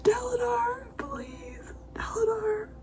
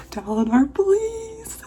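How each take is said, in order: First: High, choked whisper on the verge of tears; crying whisper pleading a character's name; tearful whisper. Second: 1 tearful plea. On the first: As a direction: plead through tears, barely voiced. Emotional reaction while reading. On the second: Pleading again, voiced. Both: Real, not acted.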